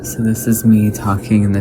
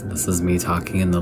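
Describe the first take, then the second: First: The voice is at a higher pitch. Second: The voice is at a lower pitch. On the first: "this is me talking in the pitch that I'm talking in right now" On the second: "This is me talking in the lower pitch that I could talk in"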